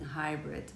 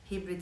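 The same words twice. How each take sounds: First: The word is pronounced with an English accent. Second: The word is pronounced with a Turkish accent.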